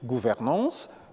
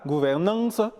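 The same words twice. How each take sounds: First: It is said with a standard French pronunciation. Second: It is said with an added n sound. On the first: "au lieu de dire" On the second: "le Camerounais dira"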